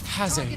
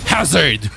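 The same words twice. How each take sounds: First: The word is said with a slanted, stylized lilt. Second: The word is said loudly, as if shouted. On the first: "italic mode" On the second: "all caps"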